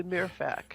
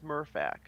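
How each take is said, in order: First: "Mirfac" with an ee-like first vowel; French-style pronunciation. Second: "Murfac" with an r-coloured "mur"; American pronunciation. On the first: Guessing the French way for friends, "Mirfac" said as "MEER-fak". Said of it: "French is probably Mirfac". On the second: Giving friends the American way, "Murfac" said as "MUR-fak". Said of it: "And American is Murfac". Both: Shown as a demonstration.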